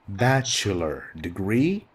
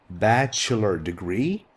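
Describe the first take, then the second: No difference in how they are said.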